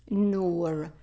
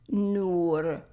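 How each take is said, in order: Both takes have the same delivery.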